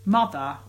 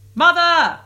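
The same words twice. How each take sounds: First: It is said flatly, without emphasis. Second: It is exclaimed with strong emphasis.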